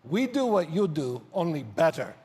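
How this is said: It is said with Emilian's Polish accent.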